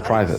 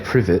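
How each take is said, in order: First: The first vowel is long, as in eye. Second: The first vowel is short, as in privet. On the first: The speaker calls it right. "you say private" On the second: The speaker calls it wrong. "You don't say privet"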